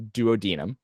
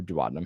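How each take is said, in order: First: "duodenum" as doo-oh-DEE-num; alternative pronunciation. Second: "duodenum" as doo-AH-duh-num; alternative pronunciation. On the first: Tutor offering a student either pronunciation, "duodenum" as doo-oh-DEE-num. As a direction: say "duodenum" with the stress on a long DEE. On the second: Tutor offering a student the other pronunciation, "duodenum" as doo-AH-duh-num. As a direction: say "duodenum" with the stress on AH, the rest reduced. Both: Shown as a demonstration. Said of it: "however you wanna say it".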